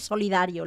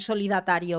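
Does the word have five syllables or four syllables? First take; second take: four; five. First: The word is said with four syllables, no extra syllable. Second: The word is said with an extra 'ta' syllable. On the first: The speaker calls it right. "Es solidario, lo sé" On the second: The speaker calls it wrong. "es gracioso decir solidatario"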